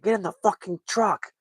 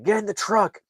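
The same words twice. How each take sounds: First: High, straining yell, even harsher; furious shouted command, cursing; furious cop yelling. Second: Sharp, high retold yell of an angry cop; angry shouted command; mad cop yelling. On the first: Retold or imitated. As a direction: scream the order with the gun drawn. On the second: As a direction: bark the order at him, much higher. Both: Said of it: "the cop gets mad".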